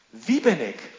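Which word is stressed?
wie. The stress falls on the word wie. It asks about one's identity.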